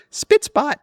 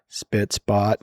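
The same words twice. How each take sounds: First: Chirpy, very high-pitched catchphrase; high-pitched nanny impression; Mary Poppins. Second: Lowered, deadpan mock gloom; glum, low-pitched sign-off; depressing. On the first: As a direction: sing out a bright little sign-off. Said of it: "like Mary Poppins does". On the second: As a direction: imitate a dispirited AI, voice dropped. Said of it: "lowered its voice and did the most depressing".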